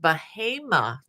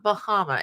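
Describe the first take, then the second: First: The name is said the local way. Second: The name is said as it looks spelled. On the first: The speaker calls it right. "I understand it's pronounced Bahama" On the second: The speaker calls it wrong. "not Bahama"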